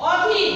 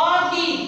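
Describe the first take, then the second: First: অধীর read as written, open o. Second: অধীর with a closed o sound, like ওধীর; as pronounced. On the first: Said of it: "অধীর, আমি লিখলাম কি?". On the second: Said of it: "উচ্চারণে কি হবে?". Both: Shown as a demonstration.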